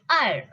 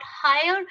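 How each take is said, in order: First: "higher" for heir, said as ire; silent H. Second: "higher" for heir with a clear h; H sounded. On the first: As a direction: say "higher" from the vowel. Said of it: "It's higher". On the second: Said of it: "It's not higher". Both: Shown as a demonstration.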